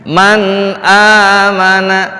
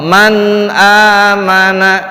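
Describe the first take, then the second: No difference in how they are said.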